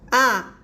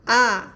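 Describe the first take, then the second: First: The pitch falls sharply from high to low. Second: The same.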